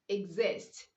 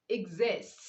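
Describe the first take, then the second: The two takes are said the same way.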